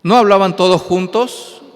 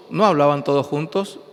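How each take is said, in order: First: "No hablaban todos juntos" said loud and higher, pressing the "no"; emphatic declaration. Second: Said in the usual way. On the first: Shown as a demonstration. Preacher insists to the congregation, loud and emphatic. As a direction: drive the point home loud. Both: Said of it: "Ahí dice la Biblia".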